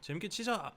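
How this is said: It is said in a Busan accent.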